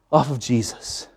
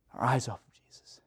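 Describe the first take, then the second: First: Said in the usual way. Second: Hushed, whispered echo; sermon point whispered to the congregation; whispered repeat. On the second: Real, not acted.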